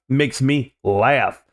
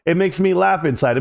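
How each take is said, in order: First: Very slow, each word stretched out; drawn-out relish. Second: Said in the usual way. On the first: Acted. Streamer gloating to chat about the stock crash, very slow and drawn out. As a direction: savor it slowly, like a private joke.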